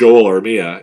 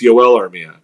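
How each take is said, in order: First: The first name begins with a J sound. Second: The first name begins with a Y sound. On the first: This is how the commentator said the name. The speaker calls it wrong. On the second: This is the player's actual name. The speaker calls it right.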